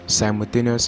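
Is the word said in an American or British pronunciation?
American. The word is said with an American pronunciation. "is American pronunciation"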